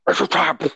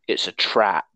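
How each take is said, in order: First: It is said in a gruff Admiral Akbar voice. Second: It is said in a plain, casual voice.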